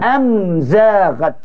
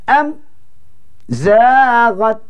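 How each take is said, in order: First: The word flows without any break. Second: The word has a brief stop after the m. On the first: The speaker calls it right. "Tak ada dengung" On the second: The speaker calls it wrong. "dia berhenti pula sekejap"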